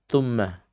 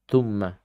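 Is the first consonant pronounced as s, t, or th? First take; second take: t; t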